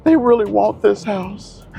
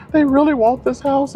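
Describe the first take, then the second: First: High falsetto whiny plea; mock crying agent. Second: Even higher whiny plea; mock crying agent. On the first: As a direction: imitate a pleading agent, pitched way up. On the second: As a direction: push the pitch further up, pleading. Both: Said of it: "literally crying".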